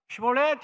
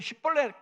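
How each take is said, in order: First: The first s sound is soft and light. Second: The first s sound is strong and tense. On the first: This is the way the word should be said. The speaker calls it right. "시볼렛 해야 되는데" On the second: This gives the speaker away as an outsider. The speaker calls it wrong. "강한 발음으로 나와"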